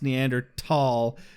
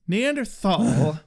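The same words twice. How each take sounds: First: The ending is said with a t sound. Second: The ending is said with a th sound. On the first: "generally honored by being pronounced Neanderthal" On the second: "Neanderthal is a perfectly legitimate pronunciation"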